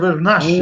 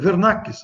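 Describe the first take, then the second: First: The consonant before the final vowel is sh. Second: The consonant before the final vowel is a hard k. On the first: The speaker calls it wrong. "eu pronunciei Vernaschi" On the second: The speaker calls it right. "Eu descobri agora que eu pronunciei seu nome errado, né? É Vernakis"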